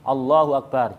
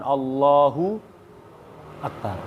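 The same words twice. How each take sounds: First: The two words are said without a pause. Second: A long pause separates the two words.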